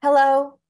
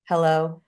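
First: High, loud, tense hello; top of the breath. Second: Relaxed hello at natural pitch; on the out breath. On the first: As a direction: greet at the top of your range. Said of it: "here's my difference". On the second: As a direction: let hello out on the exhale. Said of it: "they sound totally different". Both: Shown as a demonstration.

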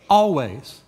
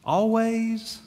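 First: ALWAYS stated firmly with a falling end; emphatic statement. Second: Held, questioning ALWAYS, a little softer; doubting question. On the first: Shown as a demonstration. Preacher correcting a loose reading, firm falling ALWAYS. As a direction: land ALWAYS as a settled answer. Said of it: "It means". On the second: Acted. Congregation querying the command to rejoice, doubting question on ALWAYS. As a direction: ask ALWAYS as if unsure it counts. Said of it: "Isn't that what it means?".

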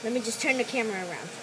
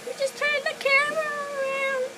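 First: Said in the usual way. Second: Squeaky high cartoon voice; silly high voice. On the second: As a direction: say it in a goofy squeaky voice. Repeats line in silly voice.

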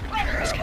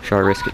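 First: Soft, voiceless whisper; hushed whisper. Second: Said in the usual way. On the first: Real, not acted. Gamer weighing a risky jump, hushed whisper. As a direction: drop to a whisper, wondering to yourself. Asks self, hushed second take.

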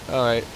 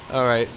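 Both takes have the same delivery.

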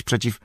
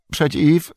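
First: Said in the usual way. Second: High, loud, cracking stammer; word catches and breaks upward; voice breaking. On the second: A narrator's reading. Innkeeper facing the Shadow, voice breaking. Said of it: "głos mu się załamał".

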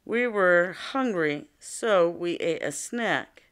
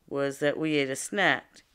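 First: A careful, measured read-aloud; slow example reading. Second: Said in the usual way. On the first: Shown as a demonstration. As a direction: read the example slowly and clearly for the class. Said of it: "let's listen to another example here". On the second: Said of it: "The cause was that we were hungry".

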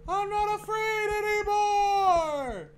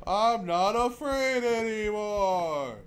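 First: High, slow, loud wail; hammed-up brave wail; wailing battle cry. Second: Slow, louder defiant shout; mock brave shout; defiant yell. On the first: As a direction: howl it like a war cry. Yelling defiance at the game. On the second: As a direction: bellow it to the ghosts.

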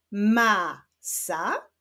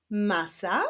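First: "Masa" as two long syllables with a gap; syllables held apart. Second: Said in the usual way. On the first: Shown as a demonstration. Teacher joining yellow and pink syllables, "Masa" read apart. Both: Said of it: "poprzez połączenia sylab żółtych".

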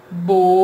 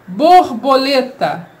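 First: "Borboleta" split as bor... bo... le... ta; syllable by syllable. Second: Said in the usual way. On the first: Shown as a demonstration. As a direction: pause after every syllable of "Borboleta". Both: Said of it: "na separação de sílabas".

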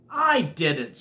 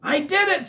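First: Rival's claim in a mid-pitched voice; Mac. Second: High, loud triumphant claim; T-Bone. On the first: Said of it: "said Mac". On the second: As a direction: crow it out, pitched way up. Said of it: "said T-Bone". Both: A narrator's reading.

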